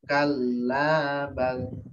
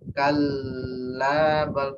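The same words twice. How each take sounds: First: The L is doubled and the A is long. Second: The L is held far too long. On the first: The speaker calls it right. "L-nya dua, A-nya dua" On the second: The speaker calls it wrong. "L ada buahnya, lebih dari dua"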